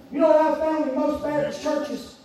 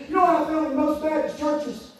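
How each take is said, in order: Both takes have the same delivery.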